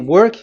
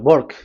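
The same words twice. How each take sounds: First: The word starts with a rounded W sound. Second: The word starts with a B-like sound.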